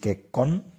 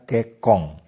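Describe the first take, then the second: First: The word ends with a plain n sound. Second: The word ends with an ng sound. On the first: "Sebenarnya tertulis kekon" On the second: "tetapi dibaca kekong"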